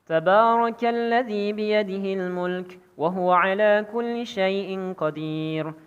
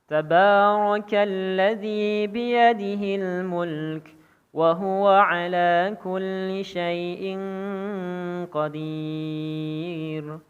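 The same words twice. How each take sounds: First: It is recited quickly, at a fast pace. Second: It is recited at a moderate, medium pace. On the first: "Hadr adalah membaca Al-Quran dengan cara yang cepat" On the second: "Jika tadi namanya tadwir, bacaannya sedang"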